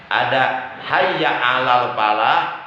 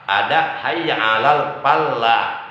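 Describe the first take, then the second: No difference in how they are said.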